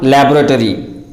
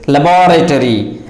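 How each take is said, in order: First: Laboratory squeezed to LAB-ro-to-ry; wrong pronunciation. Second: Laboratory stressed on the second syllable, la-BOR-a-to-ry; real pronunciation. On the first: Teacher showing learners the mistake, laboratory as LAB-ro-to-ry. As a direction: say laboratory stressed on LAB, middle vowel dropped. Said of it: "and not". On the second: Teacher giving the real pronunciation of laboratory, as la-BOR-a-to-ry. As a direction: say laboratory with a full -BOR- in the middle. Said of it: "Its real pronunciation is". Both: Shown as a demonstration.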